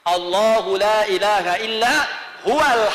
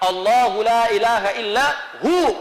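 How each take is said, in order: First: The last word keeps its 'wa' sound, running on. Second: The last word stops short as 'hu', no 'wa'.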